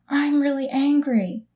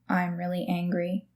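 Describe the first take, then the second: First: The voice sounds angry and emphatic. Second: The voice sounds flat and monotone. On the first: The speaker calls it right. "if someone's angry, they're going to go, I'm really angry. You need to interpret" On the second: The speaker calls it wrong.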